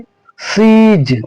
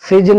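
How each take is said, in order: First: The vowel is long. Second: The vowel is short. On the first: The speaker calls it right. "सीज, इस तरह पढ़ेंगे" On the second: The speaker calls it wrong. "सीज नहीं पढ़ के"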